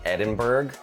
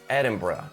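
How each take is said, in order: First: The ending sounds like burg, as in Pittsburgh. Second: The ending sounds like bruh. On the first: The speaker calls it wrong. "because they're thinking Pittsburgh" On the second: The speaker calls it right. "as in bruh"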